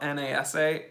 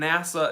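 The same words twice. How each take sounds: First: N A S A said as four separate letter names; spelled-out letters. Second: Nasa said as one word, NASS-uh; acronym as word. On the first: Showing viewers the unused form, spelled letter by letter. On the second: Conceding to viewers that nasa is said as a word. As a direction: say nasa as a word, not as letters. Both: Shown as a demonstration. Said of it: "nasa is not N A S A".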